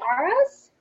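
It is said with an American accent.

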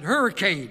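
It is pronounced the Northern way. The speaker calls it wrong. "that's the way Yankees pronounce it"

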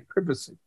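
It is said in a British accent.

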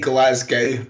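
It is pronounced the American way. The speaker calls it wrong. "They say Glasgow"

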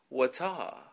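It is said in a British accent. "British people say"

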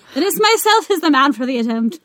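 It is read in an imitated Irish accent.

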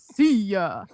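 It is said in a deep, gruff voice.

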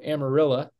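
The name ends with an 'uh' sound, locally.

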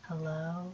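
It is said in a creepy voice.

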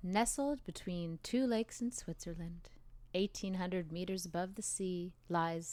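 The voice is dark, hushed and calming.

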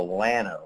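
The name has an anglicized, English-style pronunciation. The speaker calls it wrong. "If you're from Texas and actually want to be understood around here, it's the Llano because we slaughter Spanish"

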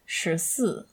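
The first syllable starts with an sh sound. This is the standard pronunciation. "the word 14 in standard Mandarin is shisi"

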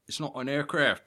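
It is said in a put-on foreign accent.

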